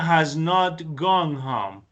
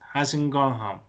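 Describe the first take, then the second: First: Has and not are said as two full words. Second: Has and not are contracted into hasn't. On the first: The speaker calls it wrong. "but sounds a little aggressive" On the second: The speaker calls it right. "it is better to say hasn't"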